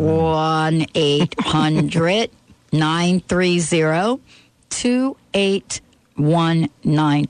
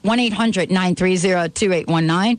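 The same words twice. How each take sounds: First: The number is said slowly. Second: The number is said fast.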